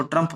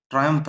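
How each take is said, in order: First: ट्रम्प said short, like the name Trump; ट्रम्प as a single clipped syllable; wrong pronunciation. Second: ट्रायम्फ with a clear "tray-umph" glide; correct pronunciation. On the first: Teacher warns students, saying ट्रम्प like the name Trump. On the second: Teacher corrects students, saying ट्रायम्फ as "tray-umph". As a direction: say ट्रायम्फ in two syllables, not ट्रम्प. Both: Shown as a demonstration. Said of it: "इसको ट्रम्प मत पढ़ना".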